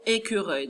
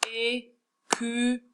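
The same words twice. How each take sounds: First: Said in the usual way. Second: Écureuil slowly as é, cu, reuil; split into syllables. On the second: Shown as a demonstration. Teacher counting syllables with pupils, écureuil split up slowly. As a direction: count out écureuil with a pause after each syllable. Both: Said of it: "On va compter ensemble les syllabes".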